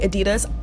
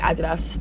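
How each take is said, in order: First: It is said with an American pronunciation. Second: It is said with a British pronunciation. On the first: "I know Americans say Adidas" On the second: "I'm British, so I'm just gonna say Adidas"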